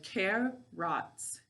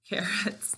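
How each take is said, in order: First: The word is split into two distinct syllables. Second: The word is said smoothly as normal speech. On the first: This is a way of saying the word to help spell it. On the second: This is the everyday way of saying the word.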